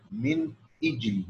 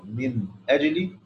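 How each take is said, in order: First: من أجل softer, as "mini jli" with the hamza moved onto the nun; correct reading. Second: من أجل with an open hamza, "min ajli"; wrong reading. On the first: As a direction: show the right way of reading من أجل. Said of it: "لا". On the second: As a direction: show the reading to avoid. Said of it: "بدل ما يقرأ". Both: Shown as a demonstration.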